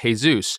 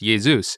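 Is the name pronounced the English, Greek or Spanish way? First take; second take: Spanish; Greek. First: The name has a Spanish pronunciation. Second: The name has a Greek pronunciation. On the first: "In Spanish, it's pronounced differently. They pronounce it Jesus" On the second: "in the original Greek language ... it's more Jesus is generally how it's pronounced"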